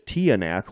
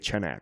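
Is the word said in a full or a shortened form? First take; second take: full; shortened. First: The word is said in its full, older form. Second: The word is said in a shortened, modern form. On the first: This is how older generations say it. "The older generations pronounce it as Tianak" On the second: This is how people say it today. "nowadays we just say Chenak"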